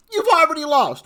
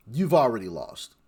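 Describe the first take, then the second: First: Much higher, louder repeat of "already lost"; exclaimed incredulously. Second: Said in the usual way. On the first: Real, not acted. Vlogger scoffing at party spending, "already lost" exclaimed high and loud.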